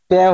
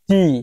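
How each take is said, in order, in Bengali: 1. স্বরধ্বনিটি ছোট 'a'-এর মতো উচ্চারিত হয়। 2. স্বরধ্বনিটি লম্বা 'ee'-এর মতো উচ্চারিত হয়। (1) "ট্যা হয়েছে না" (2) "উচ্চারণ হয়েছে কি টি"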